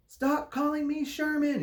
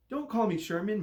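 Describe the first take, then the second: First: High, loud furious shout; shouting angrily at being called Sherman. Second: Snarling. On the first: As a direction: yell it, fed up with the name. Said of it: "he shouted". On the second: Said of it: "Mister Braun snarled". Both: A narrator's reading.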